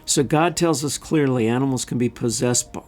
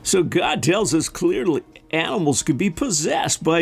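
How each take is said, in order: First: It is read in the speaker's ordinary voice. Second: It is read in a put-on imitation voice.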